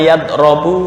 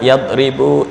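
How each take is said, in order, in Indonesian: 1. Vokal tengahnya bunyi 'o'. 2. Vokal tengahnya bunyi 'i'. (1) "nggak boleh dibaca" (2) "Doroba yadribu idrib"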